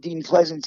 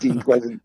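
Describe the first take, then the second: First: The name ends with an s sound. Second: The name ends with a t sound. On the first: The speaker calls it wrong. "not Pleasance" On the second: The speaker calls it right. "I think it's Pleasant"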